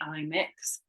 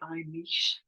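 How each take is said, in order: First: The word ends with a 'ks' sound. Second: The word ends with an 'sh' sound. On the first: The speaker calls it wrong. "I think that's the wrong pronunciation actually" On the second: The speaker calls it right. "I think it should be I mish"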